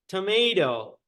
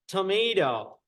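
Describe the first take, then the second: Both takes have the same delivery.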